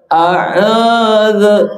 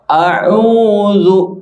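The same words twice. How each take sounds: First: The final u is not clearly rounded. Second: The final u is said with rounded lips. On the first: The speaker calls it wrong. "jangan terdengar a'udzu" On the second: The speaker calls it right. "yang tepat adalah a'udzu"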